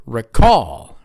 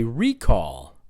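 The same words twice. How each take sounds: First: Re-CALL with a short first vowel; second-syllable stress. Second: RE-call with a long "ree"; first-syllable stress. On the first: Teacher shows the other pronunciation, re-CALL. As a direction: punch the CALL in "recall". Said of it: "Stressed on the second syllable". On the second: Teacher leads the class in repeating, RE-call stressed up front. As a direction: hit the RE in "recall". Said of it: "you stress the first syllable". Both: Shown as a demonstration.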